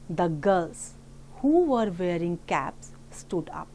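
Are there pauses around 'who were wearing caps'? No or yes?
no. It runs on with no pauses around the clause. "we pause neither before nor after the adjective clause"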